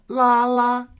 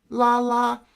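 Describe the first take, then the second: The two takes are said the same way.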